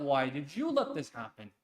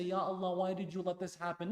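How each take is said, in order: First: Scornful echo. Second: Whiny complaint. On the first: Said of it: "No, no, no". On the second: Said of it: "So you don't say". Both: Retold or imitated.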